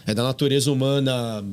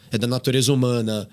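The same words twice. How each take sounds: The two takes are said the same way.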